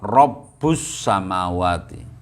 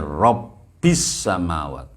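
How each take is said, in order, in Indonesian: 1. Vokal setelah Rabb bunyinya u. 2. Vokal setelah Rabb bunyinya i. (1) "diwaca rafa" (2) "diwaca kelawan jar"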